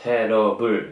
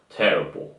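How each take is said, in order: First: It is said flat, without a breath push. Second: It is said with a strong breathy push. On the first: "이걸 갖다가" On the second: "이런 식으로"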